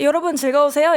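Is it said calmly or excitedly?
calmly. It is said in a calm, composed way.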